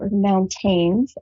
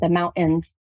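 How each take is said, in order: First: The middle T sound is pronounced. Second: The middle T sound is dropped.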